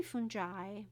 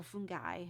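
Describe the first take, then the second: First: "fungi" with a soft g, FUN-jai; soft-g pronunciation. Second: "fungi" with a hard g, FUN-guy; hard-g pronunciation. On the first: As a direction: say "fungi" with a j sound, as in jam. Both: Shown as a demonstration. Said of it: "however you want to say it".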